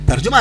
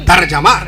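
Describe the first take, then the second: First: The middle vowel is an 'u' sound. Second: The middle vowel is an 'a' sound. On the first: The speaker calls it wrong. "तर्जुमा नहीं" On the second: The speaker calls it right. "तर्जमा जिम के जब"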